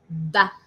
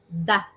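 First: The d is touched lightly, French style. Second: The d is touched lightly, French style.

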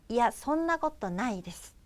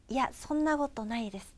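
No difference in how they are said.

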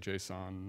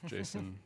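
First: It does not sound like the name [name]. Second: It sounds just like the name [name]. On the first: The speaker calls it right. "I say JSON" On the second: The speaker calls it wrong. "not JSON, just because my name's [name] and that kind of would be weird"

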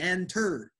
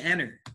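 First: The T sound is clearly pronounced. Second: The T sound is silent. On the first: "I'm not saying enter" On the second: "T after N, the T is usually silent. ... I'm saying enter"

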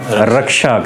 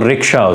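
First: The first syllable is said like 'ra'. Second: The first syllable is said like 'ri'. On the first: The speaker calls it wrong. "रिक्शा को हम रक्षा कह रहे होते हैं" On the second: The speaker calls it right. "तो रिक्शा उसको कहें"

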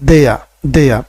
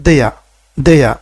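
No difference in how they are said.

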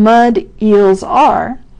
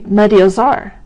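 First: Each word is said separately, not joined. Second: The words run together as one linked word. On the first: "instead of saying" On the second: "we say"

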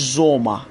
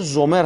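First: The word ends with an open 'a' sound. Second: The word ends with a clear 'er' sound. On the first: The speaker calls it right. "اما تلفظ بهترش زوما" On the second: The speaker calls it wrong. "اگر زومر هم بگید اشتباه نیست"

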